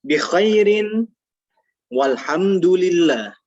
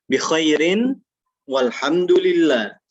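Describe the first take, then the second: No difference in how they are said.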